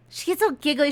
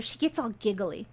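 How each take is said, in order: First: "She gets all giggly" said louder, with a higher pitch and "all" stressed; emphatic repeat. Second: Said in the usual way. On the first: Shown as a demonstration.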